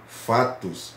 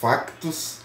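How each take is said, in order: First: The word has no k sound before the t. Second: The word has a k sound before the t. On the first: This is the Brazilian form. "No Brasil" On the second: This is the Portuguese form. "em Portugal"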